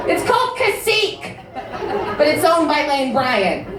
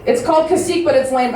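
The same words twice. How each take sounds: First: High-pitched, hammed-up indignant correction; mock the heckler, pitched way up; personally offended heckler. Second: Lightly mock an offended audience member; offended heckler. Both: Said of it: "she was personally offended by that".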